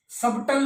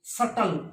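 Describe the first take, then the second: First: Wrong 'subtle', b pronounced; subtle with b sounded. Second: 'subtle' said as 'suttle'; subtle with silent b. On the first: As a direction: put a b into subtle. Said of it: "नहीं होता ये". ('सबटल', 'ब' बोलकर गलत) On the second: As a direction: drop the b in subtle. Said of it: "silent बी". ('सटल', 'ब' silent) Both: Shown as a demonstration.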